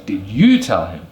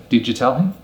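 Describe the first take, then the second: First: "you" strong and prominent in "Did you tell him?"; stress on you. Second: "Did you tell him?" with reduced "you"; unstressed "you" in "Did you tell him?"; weak you. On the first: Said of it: "putting emphasis on the word you". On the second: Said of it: "Instead of saying". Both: Shown as a demonstration.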